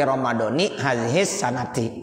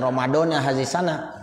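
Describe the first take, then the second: First: The last word ends in 'nati', with the case ending. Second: The last word ends in 'na', without the case ending. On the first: The speaker calls it right. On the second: The speaker calls it wrong. "jangan dibaca"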